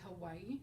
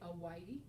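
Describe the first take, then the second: First: The word starts with an audible H sound. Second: The word starts without any H sound. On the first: "English words like Hawaii" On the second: "which they would say Hawaii, because that H is, would be silent"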